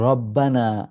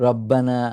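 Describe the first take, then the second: Both takes have the same delivery.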